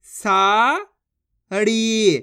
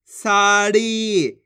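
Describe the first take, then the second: First: साड़ी as long सा, pause, long ड़ी; syllables apart. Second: साड़ी slow in one connected word; syllables joined. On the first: Teacher reads the matras directly, साड़ी split and drawn out. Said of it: "direct मात्रा का उच्चारण करके पढ़ेंगे". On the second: Teacher blends the syllables, साड़ी drawn out as one word. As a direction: join long सा and ड़ी without pause. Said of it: "तो मिलके बन जाएगा". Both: Shown as a demonstration.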